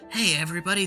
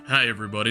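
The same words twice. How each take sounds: First: The voice is higher in pitch. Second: The voice is lower in pitch. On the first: This is how the voice sounded before it changed. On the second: This is how the voice sounded after it changed.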